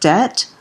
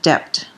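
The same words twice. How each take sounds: First: The letter B is silent in the word. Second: The letter B is sounded in the word. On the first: The speaker calls it right. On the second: The speaker calls it wrong.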